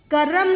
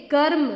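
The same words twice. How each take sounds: First: करम with a full vowel after र, ka-ram; wrong करम. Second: कर्म with the र joined straight onto म, no vowel between; correct कर्म. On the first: Teacher showing pupils the wrong way: करम, vowel slipped in. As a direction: split करम into three open syllables. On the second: Teacher showing pupils the right way: कर्म, no extra vowel. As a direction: say कर्म as one tight cluster, kərm. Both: Shown as a demonstration. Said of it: "करम नहीं".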